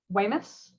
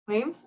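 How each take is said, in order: First: The name is said with two syllables, like Weymouth. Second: The name is said as one syllable, like Weems. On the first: The speaker calls it wrong. "I know I'm gonna say this wrong" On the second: The speaker calls it right. "I think it is Weems"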